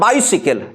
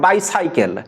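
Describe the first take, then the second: First: The second part sounds like 'sickle'. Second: The second part sounds like 'cycle'. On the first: The speaker calls it right. "this is bicycle" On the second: The speaker calls it wrong. "not bicycle"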